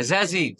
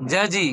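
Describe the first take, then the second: First: "জাজি" with a buzzing z in place of j; thin zay sound. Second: "জাজি" with a hard English j in both syllables; thin jim sound. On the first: Teacher drilling the Arabic letter zay, buzzing z sound. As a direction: say "জাজি" as za-zi, lips spread. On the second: Teacher drilling the Arabic letter jim, hard j sound. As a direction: say "জাজি" as ja-ji, lips spread. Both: Shown as a demonstration. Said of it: "পাতলা হরফগুলি জবর জের দিয়ে".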